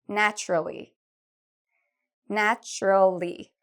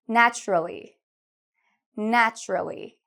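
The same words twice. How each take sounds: No difference in how they are said.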